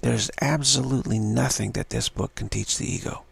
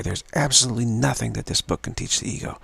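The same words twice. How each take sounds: First: "absolutely" stressed with a falling tune; adamant. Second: "absolutely" stressed with a falling tune, firm; adamant. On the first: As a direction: lean hard on "absolutely". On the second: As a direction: press down on "absolutely". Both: Shown as a demonstration. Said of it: "whatever feels like very adamant to you".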